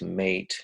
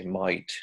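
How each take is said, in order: First: Mate with a careful 'ay' vowel; careful standard mate; hyperarticulated mate. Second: Mate said like 'might'; Australian might for mate; casual Aussie mate. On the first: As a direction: say mate formally and precisely. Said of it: "that's hyperarticulation". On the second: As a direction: relax mate into a broad 'might'. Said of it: "Hypoarticulation is more casual". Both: Shown as a demonstration.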